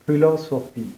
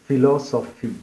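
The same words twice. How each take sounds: First: It starts with a breathy, aspirated p sound. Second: It starts with an f sound. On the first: The speaker calls it right. "നമ്മുടെ ചുണ്ടുകൾ അടുപ്പിച്ച് വെച്ച് ഒരു എയറോട് കൂടിയിട്ടുള്ള ഒരു പി ഉണ്ട്" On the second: The speaker calls it wrong. "മറ്റേത് ഫിലോസഫി എന്ന് പറയും"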